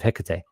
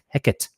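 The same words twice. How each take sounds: First: The word is said with three syllables. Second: The word is said with two syllables. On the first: This is the usual modern pronunciation. "instead of" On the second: This is the older theatrical pronunciation. "It was a disyllabic pronunciation, not three"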